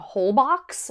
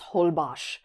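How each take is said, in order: First: The x is pronounced as a ks sound. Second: The x is pronounced as an sh sound. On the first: The speaker calls it wrong. "I was saying Holbox because that's how it's spelled" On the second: The speaker calls it right. "the X is pronounced like an SH. So it's Holbox"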